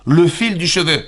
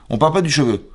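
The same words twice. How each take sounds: First: "Le fil du cheveu" with "fil" set apart, higher and pointed; accent sur le fil. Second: Said in the usual way. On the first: Shown as a demonstration. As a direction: lean on "fil", not on "cheveu". (appuyer sur «fil» dans «Le fil du cheveu», plus haut)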